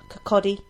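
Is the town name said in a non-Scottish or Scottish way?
Scottish. The name is said in a Scottish way.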